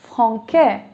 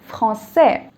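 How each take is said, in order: First: The middle consonant is a hard k sound. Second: The middle consonant is a soft s sound. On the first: The speaker calls it wrong. "without the accent, it would have been franquais" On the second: The speaker calls it right. "And I want it to be français"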